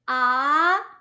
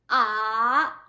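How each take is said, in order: First: The pitch rises from middle to high. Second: The pitch dips low then rises slightly. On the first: "it's rising tone" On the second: "goes down and then rise just a little bit"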